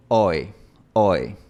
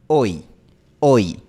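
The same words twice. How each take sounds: First: "Oi" con final más abierto, lengua menos arriba; oi inglés. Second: "Oi" fuerte, lengua alta y adelante al final; oi español. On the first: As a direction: relaja el final del "oi". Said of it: "un poco menos en el frente". ("oi" inglés abierto) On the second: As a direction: cierra bien el "oi". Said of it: "En español es más cerrado". ("oi" español, fuerte y cerrado) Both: Shown as a demonstration.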